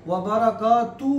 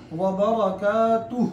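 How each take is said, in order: First: व बरकातु cut short, the final हु dropped; the wrong way, stopping at बरकातु; clipped ending. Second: व बरकातुहु slow with the final हु clearly sounded; full ending. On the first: Teacher showing the mistake of dropping हु. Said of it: "नहीं पढ़ना". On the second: Teacher showing the correct full ending. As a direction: finish बरकातुहु fully, slowly. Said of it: "ऐसे पढ़ना है". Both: Shown as a demonstration.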